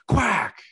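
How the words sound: The word sounds angry and stern. The speaker is annoyed at the child. "if we're pissed"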